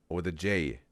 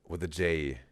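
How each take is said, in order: The two takes are said the same way.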